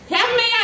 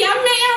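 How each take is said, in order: First: The word begins with an h sound. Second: The word begins directly with a vowel. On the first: The speaker calls it right. "ಹ ಇದ್ದಲ್ಲಿ" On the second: The speaker calls it wrong. "ಹೆಮ್ಮೆಯ ಅನ್ನಕ್ಕೆ ಎಮ್ಮೆಯ ಅಂತಾರೆ"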